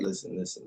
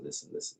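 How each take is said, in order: First: Firm hush. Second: Whispered hush. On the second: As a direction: whisper it, much softer. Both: Retold or imitated.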